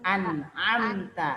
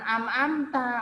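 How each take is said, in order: First: The first syllable ends in a clear n sound. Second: The first syllable ends in an m sound. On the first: The speaker calls it right. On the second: The speaker calls it wrong.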